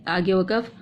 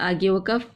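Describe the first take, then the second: No difference in how they are said.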